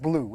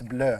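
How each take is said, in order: First: It is said like the English word blue. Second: It is said with a French-sounding vowel. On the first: The speaker calls it wrong. "not blue" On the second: The speaker calls it right. "it's bleu"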